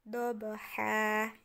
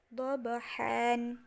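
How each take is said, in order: First: The word ends with a long a. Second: The word ends with an n sound. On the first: The word is read at a stop, dropping the nunation. The speaker calls it right. "nunnya kita hilangkan menjadi wal adiyati dobaha" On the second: The word is read as written, with the nunation. The speaker calls it wrong. "Dobahan itu tertulisnya"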